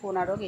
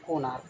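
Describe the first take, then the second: First: The name is said with three syllables. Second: The name is said with two syllables. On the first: The speaker calls it wrong. "আমরা যে উচ্চারণ করি কোনারক, এটা কিন্তু কোনারক নয়" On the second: The speaker calls it right.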